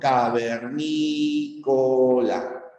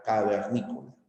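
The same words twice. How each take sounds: First: "Cavernícola" very slow and chanted, stressing "ní"; sing-song demo word. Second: Soft repeat. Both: Shown as a demonstration. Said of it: "puede llevar la tilde".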